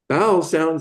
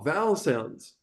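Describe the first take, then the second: First: The first word begins with a b sound. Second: The first word begins with a v sound. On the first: The speaker calls it wrong. "she pronounced it bowel" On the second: The speaker calls it right. "vowel, V O W"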